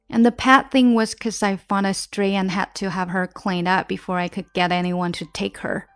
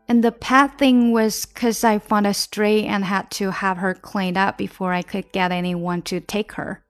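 The two takes are said the same way.

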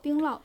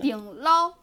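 First: It is said in standard Mandarin. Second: It is said in Shaanxi dialect.

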